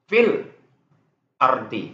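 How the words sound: There is a brief stop before ardi. "itu tuh saktah namanya"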